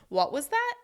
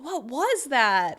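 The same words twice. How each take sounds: First: It rises from low to high, puzzled. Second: It sounds shocked and surprised. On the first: The listener needs the other person to repeat. "Raising from low to high to show the person you need them to repeat themselves" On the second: Something unexpected just happened. "in order to show surprise"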